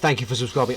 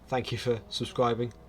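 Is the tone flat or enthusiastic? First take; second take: enthusiastic; flat. First: It is said in an excited, enthusiastic tone. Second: It is said in a flat, unenthusiastic tone.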